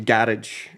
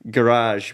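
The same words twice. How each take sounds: First: It is said in a Scottish accent, rolled R. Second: It is said in a standard English accent.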